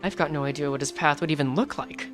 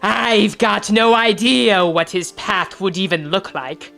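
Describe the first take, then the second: First: It is read in the speaker's normal voice. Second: It is read in a put-on Scottish-sounding voice.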